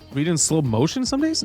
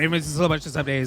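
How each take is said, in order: First: It is read slowly, with expression. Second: It is read fast, like speed reading.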